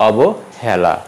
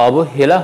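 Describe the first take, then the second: First: অবহেলা with open "æ", "awbo-hæla"; correct pronunciation. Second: অবহেলা with closed "e" in hela; wrong pronunciation. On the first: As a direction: widen the e of অবহেলা as in "hat". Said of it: "হবে". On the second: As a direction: say অবহেলা as "awbo-hay-la". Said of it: "অবহেলা হবে না". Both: Shown as a demonstration.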